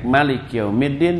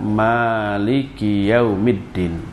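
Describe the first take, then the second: First: The first vowel of Maliki is short. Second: The first vowel of Maliki is long. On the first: The speaker calls it wrong. "dengan mak yang pendek" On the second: The speaker calls it right. "maknya itu dibaca panjang"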